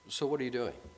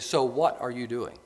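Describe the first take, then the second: First: It sounds like a plain, curious question. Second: It sounds suspicious and accusing. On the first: The asker is simply interested. The speaker calls it right. "The first one is mere interest" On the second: The listener is in trouble for doing something wrong. The speaker calls it wrong. "The second one, you're in trouble and you did something wrong"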